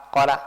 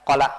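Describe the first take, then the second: No difference in how they are said.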